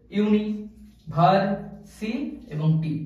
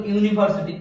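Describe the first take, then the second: First: ইউনি, ভার, সি, টি each said apart with a pause; broken into syllables. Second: Said in the usual way. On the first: Shown as a demonstration. Teacher divides an example word, ইউনি, ভার, সি, টি as separate syllables. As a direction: chop university into separate pieces, stopping after each. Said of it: "ভাগে ভাগ করা যায় সিলেবলগুলোকে". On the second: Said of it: "এরকম example".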